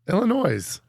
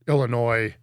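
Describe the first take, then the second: First: The final S is pronounced. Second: The final S is silent. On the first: "intentionally added the S" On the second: "he said it right"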